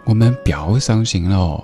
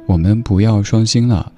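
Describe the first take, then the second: First: It is said in Sichuan dialect. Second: It is said in Standard Mandarin.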